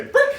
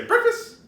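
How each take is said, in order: First: "Break!" shouted very high and loud; high loud release cue; release command. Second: "Breakfast!" squealed very high and loud; high loud decoy word; high-pitched distraction. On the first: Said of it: "until you say". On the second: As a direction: shriek "Breakfast!" way up high to tempt him. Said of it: "it's gotta be high-pitched, you can go up to him and say". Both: Shown as a demonstration.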